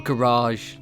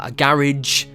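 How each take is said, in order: First: Garage is said with an American pronunciation. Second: Garage is said with a British pronunciation. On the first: The speaker calls it wrong. "Not a garage" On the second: The speaker calls it right. "British channel, yeah?"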